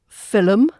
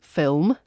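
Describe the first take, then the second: First: An extra sound is added in the middle. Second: No extra sound is added in the middle. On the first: The speaker calls it wrong. "common additions are found in film" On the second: The speaker calls it right. "actually meant to be film"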